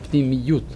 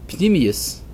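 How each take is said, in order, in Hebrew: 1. המילה מסתיימת בצליל ot בסגנון הישראלי המודרני. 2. המילה מסתיימת בצליל s בסגנון אשכנזי.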